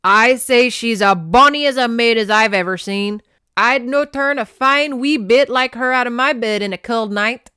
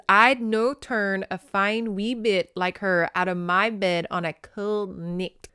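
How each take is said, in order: First: Booming amateur Scottish brogue; loud old Scotsman, badly faked accent. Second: Careful phonetic Scottish reading at normal volume; sounded-out Scots. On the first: A narrator's reading. Clan elder praising the lass to his men, hammy Scottish accent. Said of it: "I can't do a Scottish accent". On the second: Shown as a demonstration. Reader working out phonetic dialect, careful Scottish accent. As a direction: sound out the Scots slowly toward the end. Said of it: "I have to kinda read it out loud".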